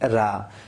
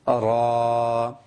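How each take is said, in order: First: The sound is light, with lips spread. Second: The sound is heavy, with lips rounded. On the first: The speaker calls it wrong. "ऐसी पतली आवाज़ रा" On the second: The speaker calls it right. "मोटी आवाज़ के साथ पढ़ी जाए"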